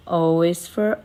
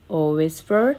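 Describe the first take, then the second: No difference in how they are said.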